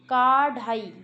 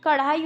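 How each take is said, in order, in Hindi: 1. पहला स्वर दीर्घ है। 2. पहला स्वर ह्रस्व है। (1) "ये पढ़ा जाएगा काढ़ाई" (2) "कढ़ाई होता है"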